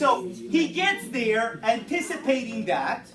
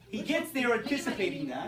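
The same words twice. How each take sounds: First: Loud and drawn out over chatter; slow down and project to the class; raised teacher voice. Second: Said in the usual way. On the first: Real, not acted. Teacher regaining a chattering class, loud and slow.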